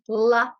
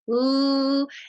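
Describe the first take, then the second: First: A short vowel follows the l sound. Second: The l sound is held alone with no vowel. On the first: The speaker calls it wrong. "We want to make sure we don't say la" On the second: The speaker calls it right. "It's l, and it's a continuous sound"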